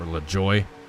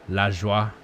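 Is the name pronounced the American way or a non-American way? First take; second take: American; non-American. First: The name is said with American pronunciation. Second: The name is said with non-American pronunciation.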